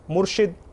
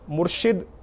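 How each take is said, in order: First: The second syllable has an i vowel. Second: The second syllable has an i vowel.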